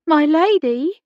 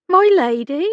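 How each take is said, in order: First: Louder repeat. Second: Becky's voice. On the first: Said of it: "repeated more loudly". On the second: Becky calls to distracted Hannah. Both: A narrator's reading.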